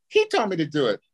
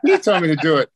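First: Lightly raised, squeaky tattletale; a hint of a high-pitched sidekick. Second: Raised, louder squeaky tattling; mock high-pitched snitch. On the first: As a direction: mimic a small man's high whine. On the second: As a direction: mimic a little guy's high whine, pushed. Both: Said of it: "he had this high-pitched voice".

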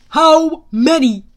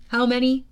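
First: Very loud, slow, higher demand; booming demand. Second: Said in the usual way. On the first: A narrator's reading. General demanding an answer Thorne withheld, booming. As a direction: boom it out, word by word. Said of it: "the general demanded". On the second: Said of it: "Luke asked".

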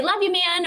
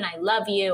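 First: Breezy and offhand, said a lot higher and louder; quick friendly sign-off, no weight on it; casual. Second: Said in the usual way. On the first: Shown as a demonstration. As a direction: toss it off lightly to a buddy. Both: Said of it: "it's just the context, the way it's said".

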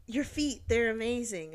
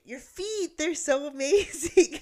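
First: Slightly raised, admiring compliment; lightly voiced admirer praising her; admiring stranger. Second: FEET and AMAZING high, loud and drawn out; emphatic repeat. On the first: Stranger approaches a woman sitting outside, mildly gushing. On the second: Retold or imitated. Stranger repeats himself after her "Huh?", stressing FEET and AMAZING. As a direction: gush "feet" and "amazing", stretched and much higher.

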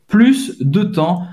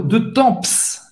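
First: TEMPS ending on a nasal vowel, slowly; silent P and S. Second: TEMPS with P and S sounded at the end; every letter pronounced. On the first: Shown as a demonstration. Teacher correcting the student, TEMPS with silent PS. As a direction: drop the final PS of TEMPS. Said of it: "Você não vai pronunciar o P". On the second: Retold or imitated. Teacher imitating a student's error, TEMPS ending in PS. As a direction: mistakenly voice the final PS of TEMPS. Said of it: "ela pronunciou todas as letras dessa palavra".

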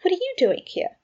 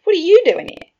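First: Taken-aback question, pitched high; WHAT stressed, voice raised in pitch; abashed. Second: YOU hit high and very loud; loud retort with YOU leaping up; stress on YOU. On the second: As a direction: throw it back, punching the word YOU. Friend throws the same question back. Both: A narrator's reading.

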